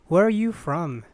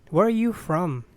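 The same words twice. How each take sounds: The two takes are said the same way.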